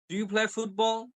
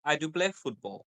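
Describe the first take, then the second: First: "Do you play football" held high through "football"; rising question. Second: "I do play football" dropping at "football"; falling statement. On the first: Teacher giving example questions, voice going up on "football". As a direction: keep "football" lifted as a question. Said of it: "So your voice is going up". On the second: Teacher giving example statements, voice going down on "football". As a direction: let "football" fall like a statement. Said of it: "your voice is going down". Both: Shown as a demonstration.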